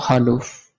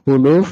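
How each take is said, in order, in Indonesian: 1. Vokal pertama adalah bunyi a. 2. Vokal pertama adalah bunyi u. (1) "dengan di fathah menjadi haluf" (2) "khuluf dengan didomah khoknya"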